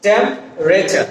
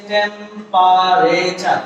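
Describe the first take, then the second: First: "টেম্পারেচার" in three syllables, temp-re-char; dropped vowel. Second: "টেম্পারেচার" slowly in four syllables, tem-pa-re-cha; common full pronunciation. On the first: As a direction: drop the "a" after "p" in "টেম্পারেচার". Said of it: "আমরা ফেলে দেই তাহলে থাকে কি". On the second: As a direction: sound every vowel in "টেম্পারেচার". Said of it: "এখানে ই শব্দটা যদি". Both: Shown as a demonstration.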